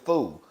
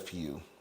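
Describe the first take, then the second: First: The word is said without a 'y' glide. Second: The word is said with a 'y' glide. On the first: The speaker calls it wrong. "I used to always say" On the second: The speaker calls it right. "I finally learned how to say few"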